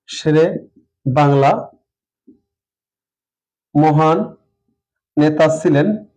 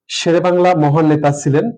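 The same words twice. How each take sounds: First: শেরে বাংলা মহান নেতা ছিলেন, each word on its own with long gaps; slow dictation. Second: Said in the usual way. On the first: Shown as a demonstration. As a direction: dictate it word by word while writing. (ধীরে ধীরে শব্দ ধরে ধরে বলা) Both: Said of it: "আমি যদি একটা বাক্য লিখি এভাবে".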